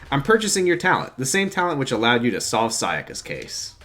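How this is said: It is read in the reader's natural voice. "I'll just read it in my voice then"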